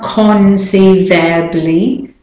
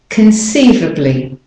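First: The vowel in the ending is full. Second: The vowel in the ending is weak. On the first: The speaker calls it wrong. "So it's not conceivably" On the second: The speaker calls it right. "the A in conceivably is the weak syllable"

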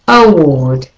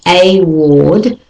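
First: The first vowel is a weak schwa. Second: The first vowel is a full vowel. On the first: The speaker calls it right. "the A becomes all the A's in all of these words I'm about to say become a schwa" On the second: The speaker calls it wrong. "not a ward"

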